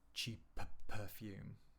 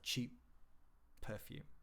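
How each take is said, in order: First: The p is released twice in a row. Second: The first p is held silent as a stop. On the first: The speaker calls it wrong. "you don't say cheap perfume" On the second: The speaker calls it right. "The first one disappears and the second one is pronounced"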